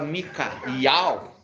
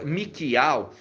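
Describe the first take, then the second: First: The name has an 'a' vowel before 'ial'. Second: The name has no 'a' vowel before 'ial'. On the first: It strengthens the divine name. The speaker calls it right. "se você fala Mikaial, fortalece" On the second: It weakens the divine name. The speaker calls it wrong. "se você falar Mika, Mikial, enfraquece o Yau"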